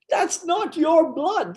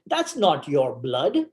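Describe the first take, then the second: First: Slow, very high mock exclamation; high-pitched repeat. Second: Slow, deliberate delivery in his usual pitch; slow punchline. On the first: Storyteller repeating the nurse's revelation, high and slow in mock disbelief. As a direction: repeat it slowly in a much higher voice. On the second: Retold or imitated. Nurse revealing the truth to the patient, retold slowly and deliberately.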